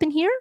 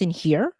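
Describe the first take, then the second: First: It is spoken high, from the head. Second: It is spoken low, from the chest. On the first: "versus the head voice up in here" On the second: "Speaking more in your chest voice in here"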